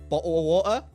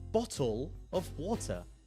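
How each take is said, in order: First: It is said in a Cockney accent. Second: It is said in a standard British accent. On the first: "But I say ... I have a dying accent called Cockney" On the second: "most people will pronounce stuff like"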